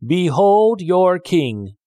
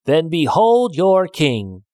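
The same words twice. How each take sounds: First: Slow, booming, higher announcement; grand proclamation. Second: Slow, louder and higher shout; angry shout. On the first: Farmer presents a log to the frogs as king, booming. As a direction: present the log like royalty, drawn out. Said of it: "he called". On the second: Annoyed man shouts at the silly frogs as he sets the dog loose, angry shout. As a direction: fling the door open and roar it. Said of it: "and shouted". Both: A narrator's reading.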